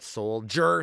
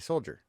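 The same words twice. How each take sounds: First: The final er sound is strongly over-enunciated. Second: The final er sound is said plainly. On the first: "he over enunciates certain things, ... like the er sound" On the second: "Like it would just say soldier"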